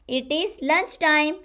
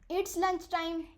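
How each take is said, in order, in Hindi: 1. दोनों शब्द 'it is' अलग-अलग बोले जाते हैं। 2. 'It is' एक ही शब्दांश में छोटा हो जाता है।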